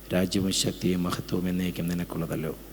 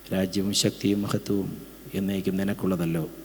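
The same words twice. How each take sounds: The two takes are said the same way.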